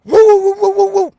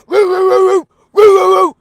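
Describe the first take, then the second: First: High, loud woo-woo barking like a dog; imitating the dog's alarm bark; dog howl imitation. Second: High, loud woofing pushed from the chest; imitating the dog's chest bark; chesty dog woof imitation. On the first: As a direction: howl like the dog getting worked up. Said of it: "he's like". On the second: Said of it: "he do it with his chest".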